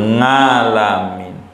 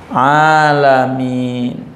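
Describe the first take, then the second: First: The word begins with a nasal ng sound. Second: The word begins with a throat ain sound. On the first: The reader cannot pronounce the letter ain. The speaker calls it wrong. "Imamnya ngalamin" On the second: The reader pronounces the letter ain properly. The speaker calls it right. "Kita bisa ain"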